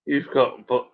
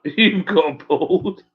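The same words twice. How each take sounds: First: Said in the usual way. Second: You've got bald through a laugh, slowed down. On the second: Real, not acted. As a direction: laugh as you correct yourself.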